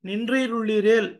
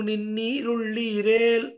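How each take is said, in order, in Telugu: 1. మధ్య హల్లుల సమూహం గట్టి 'ndr' శబ్దం. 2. మధ్య హల్లుల సమూహం మృదువైన ద్విత్వ 'nn'. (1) "విడిగా పదాన్ని చెప్పినప్పుడు ... ఈజ్ కరెక్ట్" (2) "మనం చదివేటప్పుడు ... అని చదవాలి"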